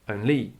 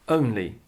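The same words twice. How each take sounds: First: The stress is on the second syllable. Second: The stress is on the first syllable. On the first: The speaker calls it wrong. "not only" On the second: The speaker calls it right. "but only"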